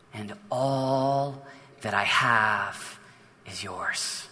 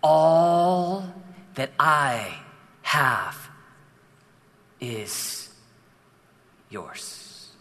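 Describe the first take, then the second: First: Very slow and soft, the father's loving words; tender hush. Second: Slower still, fading into a whisper on yours; whispered retake. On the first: Pastor voicing the father's promise to his son, slow and soft. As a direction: let each word fall gently and softly. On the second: Pastor redoes the father's line to the son, slow and whispered. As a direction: draw each word out and let the last one vanish into a whisper. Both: Acted. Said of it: "Let's do that again".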